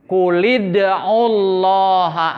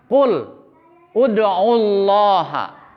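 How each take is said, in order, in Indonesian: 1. Kata-katanya menyambung dengan vokal penghubung. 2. Kata-katanya diucapkan terpisah, glottal stop tetap dipertahankan. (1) "Dilanjutkan bacanya. Jadi kulid'ullaha, hamzahnya sudah membaur, tidak dibaca" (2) "begitu asalnya mah kul, ud'ullaha"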